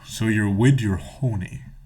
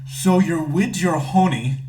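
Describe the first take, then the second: First: It is read in a close, storytelling voice. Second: It is read in a plain, ordinary voice. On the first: "we're gonna read this in the in the story voice" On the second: "I'm gonna read it to you exactly how it's written"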